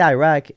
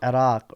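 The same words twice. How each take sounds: First: The name has an Americanized pronunciation. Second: The name has a native-style pronunciation. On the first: This is the habitual pronunciation picked up in America. The speaker calls it wrong. "I say Iraq" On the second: This is the pronunciation one is expected to use. The speaker calls it right. "I'm supposed to say Iraq"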